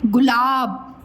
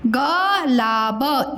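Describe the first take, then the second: First: गुलाब said whole, "gulaab"; corrected word. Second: गुलाब read slowly as "ga-laa-ba"; misread as written. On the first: Teacher naming the flower correctly, "gulaab". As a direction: say गुलाब with short gu and long laab. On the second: Teacher posing the misspelt flower, slow "ga-laa-ba". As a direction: sound out गुलाब letter by letter with no u. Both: Shown as a demonstration. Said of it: "बताओ क्या है?".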